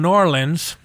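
It is said the way Southerners say it. This is how people in the south say it. "That's how they say it down south"

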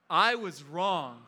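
It is said with strong, heartfelt emotion. "Now this time with feeling"

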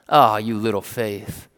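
It sounds mocking, like a dig.

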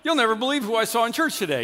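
It sounds casual and neutral.

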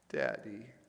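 It is called out in a sad voice.

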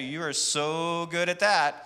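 The voice sounds mocking and sarcastic. The speaker means the opposite of the words. "I'm being sarcastic"

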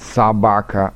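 The first vowel sounds like an a. This is the Moscow-region way of speaking. "акают"

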